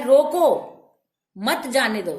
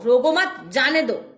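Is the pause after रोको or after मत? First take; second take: after रोको; after मत. First: There is a pause after रोको. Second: There is a pause after मत.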